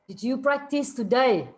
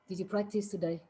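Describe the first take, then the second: First: It is said with a raised, louder voice. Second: It is said at a normal, softer volume. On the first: The listener did not hear it the first time. "If you didn't hear it, and if I have to say it again" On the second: It is the first time the question is asked. "For example"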